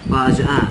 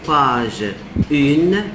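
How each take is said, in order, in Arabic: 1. الرقم ينتهي بحرف علة أنفي. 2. الرقم ينتهي بحرف ساكن واضح هو n. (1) "بنقول باج ان" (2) "ده الغلط"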